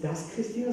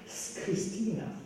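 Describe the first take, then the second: First: The article is said as a full syllable. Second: The article is reduced to a bare s sound. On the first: The speaker calls it wrong. "man sagt nicht das Christina" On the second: The speaker calls it right. "sondern man sagt S Christina"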